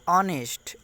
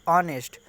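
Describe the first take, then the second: No difference in how they are said.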